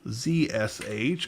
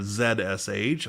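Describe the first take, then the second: First: The letter Z is said the American way. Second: The letter Z is said the British way.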